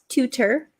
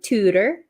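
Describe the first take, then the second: First: The middle T is a crisp stop. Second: The middle T is a quick flap. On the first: The speaker calls it wrong. "not tutor" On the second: The speaker calls it right. "This is also a flap T"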